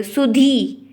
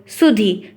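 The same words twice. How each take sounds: First: सुधी said as "su-dheee"; सुधी with a drawn-out "dhee"; long final ee. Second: सुधी said as "su-dhi"; सुधी ending on a brief "dhi"; short final i. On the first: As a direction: stretch the last vowel of सुधी. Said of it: "बड़ी की मात्रा लगी हुई है". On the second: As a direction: cut the last vowel of सुधी short. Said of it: "छोटी की मात्रा लगी हुई है". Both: Shown as a demonstration.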